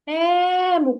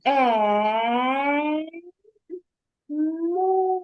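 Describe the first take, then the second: First: Ему called out long and ringing. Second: Е, pause, му, each syllable tapped out slowly; syllables split. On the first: Teacher calling ему out so the child hears stress. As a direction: call the word out as if across a field. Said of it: "погукай слово". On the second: Teacher tapping out ему by syllables for the child, slowly. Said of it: "перевіряємо". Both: Shown as a demonstration.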